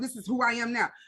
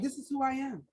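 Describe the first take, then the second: First: It sounds cocky and full of attitude. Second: It sounds calm and at peace.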